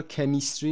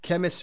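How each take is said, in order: First: کمیستری as "ke-MIS-tree", full i in the middle; wrong full-vowel pronunciation. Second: Chemistry as "KEM-əs-tree", weak middle vowel; correct schwa pronunciation. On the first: Teacher showing how not to read it, full middle vowel. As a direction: sound out a clear "mis" in کمیستری. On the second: Teacher contrasting with the wrong reading, schwa pronunciation. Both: Shown as a demonstration.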